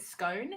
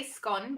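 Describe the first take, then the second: First: "scone" rhyming with bone; long-O scone. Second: "scone" rhyming with gone; short-O scone. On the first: American asking Brit about "scone", long O. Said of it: "how would you pronounce it?". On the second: American showing their way of saying "scone", short O. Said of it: "like, we say scone". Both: Shown as a demonstration.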